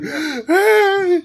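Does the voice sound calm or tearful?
tearful. It is said in a tearful voice.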